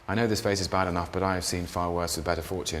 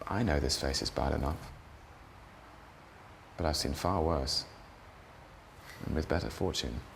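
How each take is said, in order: First: The line is run together quickly. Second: The line is said slowly, like natural talk.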